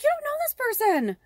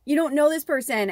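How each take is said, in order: First: Much higher, cracking with tears; real tears breaking through. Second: Louder, still raised, steadier; insisting after the tears break; firmer repeat. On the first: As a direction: choke up on the words. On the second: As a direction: say it again and mean it. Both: Real, not acted. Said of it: "starting to get emotional about it".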